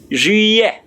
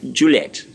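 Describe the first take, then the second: First: It ends on a vowel with no t. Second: It ends with a clear t sound. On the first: The speaker calls it right. "the T there is silent" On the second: The speaker calls it wrong. "A lot of people mistakenly call or pronounce this Juliet"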